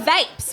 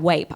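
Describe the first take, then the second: First: The word begins with a V sound. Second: The word begins with a W sound.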